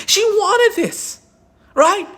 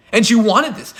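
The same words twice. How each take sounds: First: High, slow, drawn-out sarcasm; sarcastic mock. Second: Said in the usual way. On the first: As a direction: stretch it out, dripping with sarcasm. Sarcastic restating of defense.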